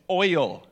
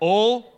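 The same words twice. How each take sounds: First: The word is said as 'oil', with a full diphthong. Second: The word sounds like the single syllable 'ul'. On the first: This is how the speaker says it. The speaker calls it right. "No, it's oil" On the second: This is how someone from that area says it. The speaker calls it wrong. "that was U-L"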